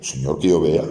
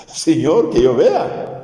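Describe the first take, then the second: First: Said in the usual way. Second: High, imploring plea; pleading beggar. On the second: Retold or imitated. The blind man begging Jesus to see, high imploring plea.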